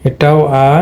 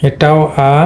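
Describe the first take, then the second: No difference in how they are said.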